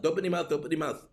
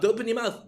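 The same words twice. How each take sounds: First: Fast rattled-off repeated warning; very fast nagging repeat; rapid-fire nagging. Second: Higher, louder warning call; higher, louder scold at the team; louder mock scolding. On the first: Pretend. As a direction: gabble it like an exasperated parent. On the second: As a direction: really yell the warning now. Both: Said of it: "and we have to say".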